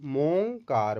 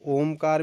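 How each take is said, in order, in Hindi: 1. शब्द M ध्वनि से शुरू होता है। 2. शब्द स्वर ध्वनि से शुरू होता है। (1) "ओमकार की जगह मोकार, मोंकार भी हो सकता है" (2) "तो ओमकार भी हो सकता है"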